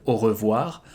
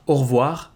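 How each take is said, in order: First: Said in the usual way. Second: "au revoir" squeezed to two syllables, no E in "re"; everyday "au revoir" with the schwa dropped; devocalized E. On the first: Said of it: "instead of". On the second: Shown as a demonstration. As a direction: say "au revoir" like "or-vwar". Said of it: "you can devocalize the E".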